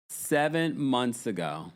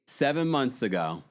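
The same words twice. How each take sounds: First: "Seven months ago" slowed right down, word by word; slow, deliberate "Seven months ago"; pointed repetition. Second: Said in the usual way. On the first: Real, not acted. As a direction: spell out "Seven months ago" slowly for emphasis. Repeating the date for emphasis.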